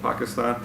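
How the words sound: It is said with a non-American pronunciation. Opponents took this as a sign of un-American behavior. "he said Pakistan"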